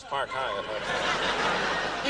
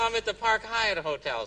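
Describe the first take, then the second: First: Low, drawn-out mock dictation; slow note-taking. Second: Said in the usual way. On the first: Secret Service agents noting the hotel on memo pads, very slow and low. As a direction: stretch each word out as if jotting it down. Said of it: "pull out these memo pads". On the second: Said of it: "I said".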